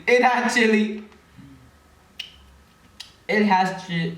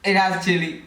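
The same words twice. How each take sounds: First: Shocked. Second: Said in the usual way. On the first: Real, not acted. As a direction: realize the candy is spicy. Discovering chili in candy.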